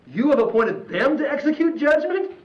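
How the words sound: It is said as a questioning remark. It doubts that they could be appointed for judgment. The speaker calls it right. "I'm going to read this as a question"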